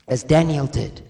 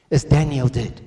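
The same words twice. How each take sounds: The two takes are said the same way.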